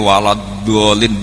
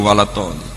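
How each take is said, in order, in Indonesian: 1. Kata kedua dimulai dengan bunyi d. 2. Kata kedua dimulai dengan bunyi t. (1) "do mboten saged" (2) "Tetep walad tolin"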